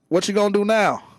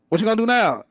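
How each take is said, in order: First: The phrase is said at a slower pace. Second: The phrase is said at a faster pace. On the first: "the guy goes" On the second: "You speed it up"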